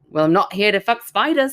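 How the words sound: It is said in an Australian accent.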